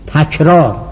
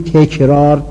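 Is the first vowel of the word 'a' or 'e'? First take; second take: a; e. First: The first syllable has an open 'a' vowel. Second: The first syllable has an 'e' vowel. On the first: The speaker calls it right. "همش اولش مفتوحه" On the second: The speaker calls it wrong. "ما میگیم تکرار، تمثال، اینا غلطه"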